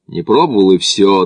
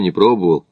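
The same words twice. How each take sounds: First: A touch of irritated insistence; mild annoyance. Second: Said in the usual way. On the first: A narrator's reading. Смит answers Макдональд's questioning, mildly annoyed. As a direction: cut the question off with mild vexation. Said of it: "досадливо дёрнул щекой Смит".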